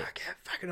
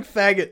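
First: Voiceless, strangled mock scream; hushed, straining attempt at yelling; failed scream. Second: Loud, high mock yell; raised, high-pitched mock holler; retold yell. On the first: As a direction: imitate trying to scream with no voice. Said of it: "I was trying to scream". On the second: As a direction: imitate yelling out in a dream. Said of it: "I was just yelling".

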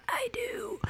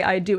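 First: Raspy breathless whisper of a vow; wedding vow that comes out only as a creepy whisper. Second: Said in the usual way. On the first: Retold or imitated. Bride losing her voice whispers her vow, creepy whisper. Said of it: "a creepy whisper". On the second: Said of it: "when I went to go say".

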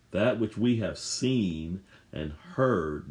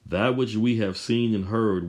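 First: That which we have seen and heard, each word drawn out slowly; slow it right down, let every word of That which we have seen and heard land; slow, deliberate stress through the phrase; slow emphatic reading. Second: Said in the usual way. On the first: Shown as a demonstration. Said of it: "Notice John is emphasizing the physical senses".

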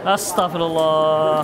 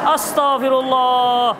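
First: Slow, lower, drawn-out astagfirullah; weary sigh. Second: Slow, drawn-out astagfirullah through a laugh; exasperated laugh. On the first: Ustadz despairing at the question, slow and weary. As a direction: let astagfirullah sag out slowly. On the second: Ustadz exasperated by a question just answered, laughing slowly. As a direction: stretch astagfirullah out with a helpless laugh. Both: Real, not acted.

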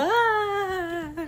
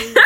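First: High bye that falls away; falling away bye. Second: Ghost voice. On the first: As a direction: say bye like jumping off. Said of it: "How did you do the jump?". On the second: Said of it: "I sound like a ghost". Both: Shown as a demonstration.

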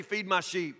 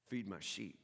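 First: Awkward reply. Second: Soft, low, gentle; tender command. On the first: Pretend. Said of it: "it's usually just kinda awkward if you say". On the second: Acted. Jesus to Simon by the fire, soft and tender. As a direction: say it softly like a final plea.

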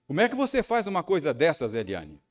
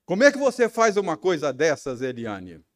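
First: Fast, sharp, higher scolding; confronting his wife in the car rehearsal, scolding; rehearsed angry question. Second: Loud, fast, high accusing shout; reenacting the scene, shouting at his wife; angry shouted question. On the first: Retold or imitated. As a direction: rehearse the accusation with rising anger. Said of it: "ensaiei três perguntas". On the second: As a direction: yell it at her as if she's right there. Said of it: "Ó, imagine a cena".

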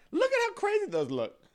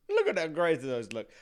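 First: High, loud squeal of delight; squealing excited. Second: Said in the usual way. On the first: Real, not acted. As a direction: gush at the pictures. Repeated with contrast.

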